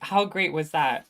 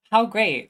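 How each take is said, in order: First: Said in the usual way. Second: Delighted exclamation. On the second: Real, not acted.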